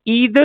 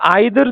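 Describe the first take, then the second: First: The first vowel sounds like 'ee'. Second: The first vowel sounds like 'eye'. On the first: "it can be pronounce ईदर और आइदर, दोनों ठीक है" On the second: "it can be pronounce ईदर और आइदर, दोनों ठीक है"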